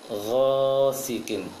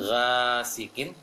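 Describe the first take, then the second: First: The first syllable is thick and rounded. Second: The first syllable is thin and open. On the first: The speaker calls it right. "huruf tebal ghain" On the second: The speaker calls it wrong.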